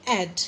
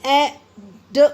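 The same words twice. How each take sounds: First: Said in the usual way. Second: "ए", a pause, then a separate "ड"; broken into pieces. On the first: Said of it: "क्या बोलेंगे?". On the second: Shown as a demonstration. Teacher showing the wrong way, "ए ड" in two pieces. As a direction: split the word into "ए" and a detached "ड". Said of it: "नहीं बोलेंगे हम".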